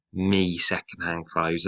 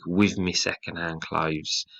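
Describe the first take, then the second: First: "me second-hand clothes" in a light northern working class accent; northern dialect. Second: "With me second-hand clothes" slow, in a light Liverpool working class accent; northern working class accent. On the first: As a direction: slip into a Liverpool working class voice. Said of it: "almost go into character". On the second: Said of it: "forces you into a sort of northern working class accent". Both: Shown as a demonstration.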